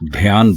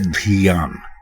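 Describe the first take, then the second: First: The first consonant runs straight into ya. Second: An i vowel follows the first consonant. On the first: The speaker calls it wrong. "इसको अक्सर लोग ध्यान बोलते हैं" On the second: The speaker calls it right. "दुरुस्त लफ्ज है धियान"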